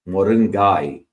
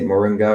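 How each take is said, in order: First: It is said in a Tamil accent. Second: It is said in an American accent. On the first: "if you put a Tamil accent, it's moringai" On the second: "Americans may say moringa"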